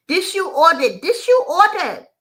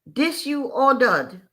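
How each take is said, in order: First: High, loud mock yell in broken English; waitress yells at the customer, much higher and louder; loud nasty yell. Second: Slow, firm mock waitress, a bit higher; waitress mildly angry in broken English; stated angrily. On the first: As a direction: hammer it at him like the furious waitress. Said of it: "In a real loud, nasty tone, she yells". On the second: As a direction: lay down the accusation slowly in broken English. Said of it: "in turn she stated angrily".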